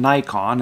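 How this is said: It is pronounced the American way. "in America, we use the expression"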